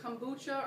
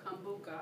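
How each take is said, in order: First: "kombucha" ending in a "chuh" sound. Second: "kombucha" ending in a "kuh" sound. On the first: Class presenter unsure of the drink's name, "kombucha" with ch. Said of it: "is it kombucha or kombucha". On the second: Class presenter offering another guess at the name, "kombucha" with k. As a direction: say "kombucha" with a hard k, kom-BOO-kuh. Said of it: "or kombucha? I don't know". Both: Shown as a demonstration.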